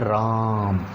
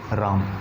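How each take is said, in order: First: The vowel is drawn out for a long time. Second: The vowel is held for a normal length.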